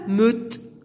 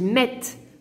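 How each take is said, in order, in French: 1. La voyelle est un e neutre, arrondi. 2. La voyelle est un son è ouvert. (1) "je ne dis pas meute" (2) "je dis mette"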